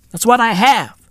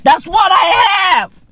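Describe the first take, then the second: First: Said in the usual way. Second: High excited repeat. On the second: Acted.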